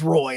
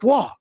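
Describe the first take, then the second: First: The name is said as 'Roy', rhyming with boy. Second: The name is said as 'Wah', with no 'oy'. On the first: This is how other players with the name say it. "they pronounce it as Roy" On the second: This is how one famous goalie's name is said. "I will always say it as Waugh first"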